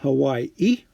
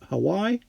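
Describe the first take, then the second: First: It sounds like the familiar island name. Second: It sounds unlike the familiar island name. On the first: The speaker calls it wrong. "not Hawaii" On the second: The speaker calls it right. "because it's only got one I, but Hawaii"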